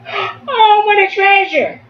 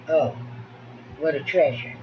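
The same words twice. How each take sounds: First: It is said in a lively, excited voice. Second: It is said in a flat, uninterested voice. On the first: The reader shares the characters' excitement. The speaker calls it right. "using your voice. You have to be excited" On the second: The reader shows no interest in the story. The speaker calls it wrong. "There's no interest there"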